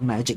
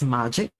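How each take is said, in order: First: The first syllable has an English 'ma' sound. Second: The first syllable has a Japanese 'ma' sound.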